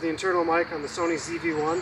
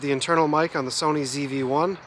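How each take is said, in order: First: The voice is recorded far away, about twenty feet. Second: The voice is recorded close, at arm's length. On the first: "from twenty feet" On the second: "This is a mic test of the internal mic on the Sony Z V one at arm distance"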